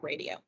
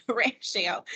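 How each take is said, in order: First: "radio" with a d in the middle, tossed off softly; quietly cite the slip "radio", RAY-dee-oh; "radio" said low and soft, as the wrong word; mispronounced ratio. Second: "ratio" with a clear sh after a laugh; amused self-correction, "ratio" as RAY-shee-oh; "ratio" carefully sounded out with sh; corrected pronunciation. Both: Shown as a demonstration. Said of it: "not radio".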